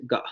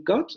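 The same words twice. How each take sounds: First: "ga" with the T dropped to a glottal stop; glottalized got. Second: Got with a clear final T; "got" said with the T fully released; standard got. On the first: Teacher showing the Australian glottal-stop "got". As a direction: say "ga", cutting off the final T. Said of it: "van a decir ga". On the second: Teacher demonstrating the standard English "got". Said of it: "en lugar de decir got". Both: Shown as a demonstration.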